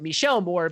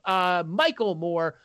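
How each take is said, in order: First: The first name has a French pronunciation. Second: The first name has an English pronunciation.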